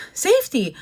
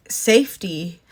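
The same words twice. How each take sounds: First: Safety repeated much higher with a falling finish; stress on safety. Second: Said in the usual way. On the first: Shown as a demonstration. Vlogger warning viewers about language barriers, stressed safety. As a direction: hit safety hard the second time.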